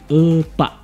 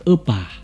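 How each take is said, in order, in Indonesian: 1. Suku kata terakhir a ditekan. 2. Suku kata terakhir a tidak ditekan. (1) "jadi A-nya pun ditekan" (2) "bukan epa"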